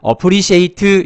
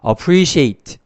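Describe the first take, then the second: First: The final t is followed by a vowel. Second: The final t is released with no vowel. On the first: The speaker calls it wrong. "이렇게 하면 안 됩니다" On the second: The speaker calls it right. "그래서 appreciate 이렇게 됩니다"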